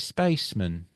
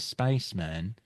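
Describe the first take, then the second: First: The final syllable is reduced, like in 'postman'. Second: The final syllable 'man' is said in full. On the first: The speaker calls it wrong. "they say spaceman, like, oh, the dustman's been, the postman" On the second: The speaker calls it right. "they don't say spaceman"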